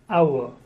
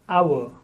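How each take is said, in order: Both takes have the same delivery.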